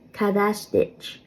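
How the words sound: The final syllable sounds like 'ditch'. "I am pronouncing that more of like an Ulster way"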